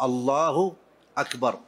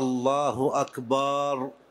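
First: The vowel after the b is short. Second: The vowel after the b is drawn out long. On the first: The speaker calls it right. "لا بد أن تكون بهذا اللفظ الله أكبر" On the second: The speaker calls it wrong. "ألا يمد الباء في أكبر، فلا يقول مثلا"

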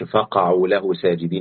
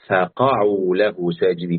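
First: The letters and vowels are run together. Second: Each letter is given its own vowel distinctly. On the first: The speaker calls it wrong. "ما أقولش فقعوا له ساجدين" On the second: The speaker calls it right. "كل حرف عليه حركة أديله حركته"

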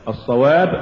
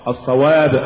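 Both takes have the same delivery.

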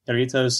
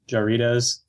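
First: The word does not start with an English j. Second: The word starts with an English j sound. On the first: The speaker calls it right. "But he's right" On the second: The speaker calls it wrong. "pronouncing as Jarritos. Because mm-hmm. we're Midwestern, you see. That's how we pronounce everything. It's a J"

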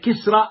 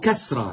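First: The first syllable has an "i" vowel. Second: The first syllable has an "a" vowel. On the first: "يجوز بكسر الكاف وهو الأشهر" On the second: "أو بفتحه"

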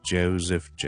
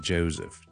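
First: The middle consonant is a buzzing Z sound. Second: The same.

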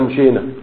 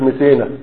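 First: The middle consonant is an 'sh' sound. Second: The middle consonant is a plain 's' sound. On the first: The word as it is meant to be said. The speaker calls it right. "بمعنى مشينا" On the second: A young child is saying the word. The speaker calls it wrong. "الشين تنقلب إلى سين"

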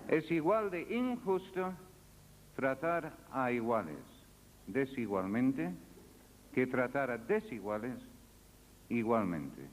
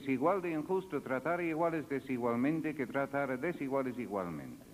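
First: The sentence is spoken at a slower pace. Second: The sentence is spoken at a normal pace.

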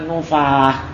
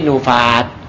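First: The word ends with an h sound. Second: The word ends with a t sound. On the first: The speaker calls it wrong. "Kalau di waqaf bacanya jangan nufah" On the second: The speaker calls it right. "tapi nufat"

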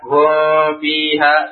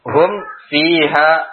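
First: The m is hidden and blurred with nasal sound. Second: The m is pronounced clearly with closed lips. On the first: The speaker calls it wrong. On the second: The speaker calls it right.

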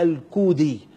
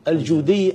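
First: The name begins with a K sound. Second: The name begins with a J sound.

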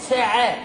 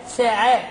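No difference in how they are said.

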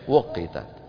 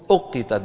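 First: The word begins with a w sound. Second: The word begins with a glottal stop. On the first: This is the original form of the word. The speaker calls it wrong. "ما أصلها؟ وقتت، بس ما بيصح نقول وقتت" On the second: This is the form used in recitation. The speaker calls it right. "أقتت بالهمزة"

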